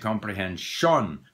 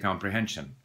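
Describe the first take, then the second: First: The unstressed vowels are fully pronounced. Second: The unstressed vowels are reduced and nearly disappear. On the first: The speaker calls it wrong. "We don't say comprehension" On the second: The speaker calls it right. "We say comprehension"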